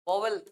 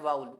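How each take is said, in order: First: It is said as two syllables, vo-vel. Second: It is said with a glide, vow-ul. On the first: The speaker calls it wrong. "इसको कई पढ़ते हैं वोवल" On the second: The speaker calls it right. "इसको बोलते हैं वाउल"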